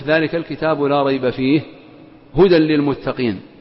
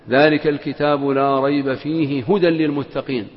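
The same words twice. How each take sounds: First: There is a pause partway through the phrase. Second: The phrase is read straight through without pausing. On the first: "أو تقف" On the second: "فتقرأ قائلا"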